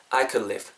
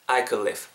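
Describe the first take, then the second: No difference in how they are said.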